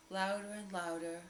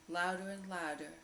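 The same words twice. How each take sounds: The two takes are said the same way.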